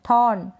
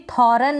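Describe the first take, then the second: First: थॉर्न as one syllable, R almost silent; थॉर्न close to thawn, with hardly any R; barely sounded R. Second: थॉरन as thaw-run, two syllables; over-pronounce the R in थॉरन; थॉरन with a vowel after a full R; wrong full R. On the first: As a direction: keep the R in थॉर्न very slight. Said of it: "आर को बिल्कुल मामूली सा pronounce करें". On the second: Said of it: "ना पढ़ें". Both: Shown as a demonstration.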